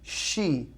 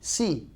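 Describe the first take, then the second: First: The word begins with a hushing sh sound. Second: The word begins with a hissing s sound. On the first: The speaker calls it right. "When we say S H together, it's uh, she" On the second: The speaker calls it wrong. "we will pronounce it si"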